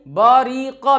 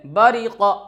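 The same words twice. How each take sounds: First: बरी क dragged out as "baa-ree-qaa"; wrong-example long "baa-ree-qaa" for बरी क; over-long vowels. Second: बरी क as a quick "ba-ri-qa"; short vowels. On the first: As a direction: stretch every vowel of बरी क. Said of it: "भी नहीं". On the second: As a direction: keep all syllables of बरी क short. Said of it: "बल्कि बरी क". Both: Shown as a demonstration.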